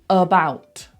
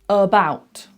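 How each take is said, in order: The two takes are said the same way.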